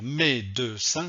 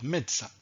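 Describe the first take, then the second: First: The middle E sound is pronounced. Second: The middle E sound is dropped. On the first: The speaker calls it wrong. "je ne vais pas dire médecin" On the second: The speaker calls it right. "on ne prononce pas le E"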